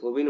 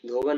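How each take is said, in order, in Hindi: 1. दूसरे अक्षर में 'i' स्वर है। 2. दूसरे अक्षर में 'a' स्वर है। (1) "धोबिन होती है, क्या होती है, धोबी न" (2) "धोबन नहीं"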